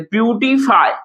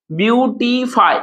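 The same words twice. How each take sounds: First: Said in the usual way. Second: "ब्यूटीफाई" slowly as ब्यू-टी-फाई; three syllables. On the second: Shown as a demonstration. Teacher counting syllables for students, slow and split. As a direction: stretch all three parts of "ब्यूटीफाई". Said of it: "इसको हम लोग तीन syllable".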